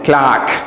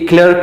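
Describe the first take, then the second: First: The vowel is an open 'ah' sound. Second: The vowel is a central 'er' sound. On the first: The speaker calls it right. "इसमें आ sound है" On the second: The speaker calls it wrong. "ये हम गलत बोलते हैं"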